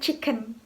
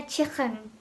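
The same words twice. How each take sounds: First: Said in the usual way. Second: "chicken" with a Liverpool throaty k, like "chikhen"; Liverpool accent. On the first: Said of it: "bukan chicken". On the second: Shown as a demonstration. Teacher showing Liverpool speech to learners, Liverpool accent. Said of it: "contohnya Liverpool accent itu".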